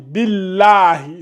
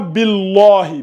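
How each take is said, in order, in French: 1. Le son l est léger et fin. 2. Le son l est lourd et emphatique. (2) "C'est pas billahi"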